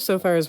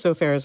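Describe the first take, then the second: First: The name sounds like the word sofa plus er. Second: The name sounds like the words so fair. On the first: The speaker calls it wrong. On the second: The speaker calls it right.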